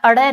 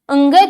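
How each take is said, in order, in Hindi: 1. इसका उच्चारण flapped 'r' ध्वनि के साथ होता है। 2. इसका उच्चारण नासिक्य 'ng' ध्वनि के साथ होता है। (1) "अड़य नहीं होता" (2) "जिसका उच्चारण क्या होता है, अंग की तरह होता है"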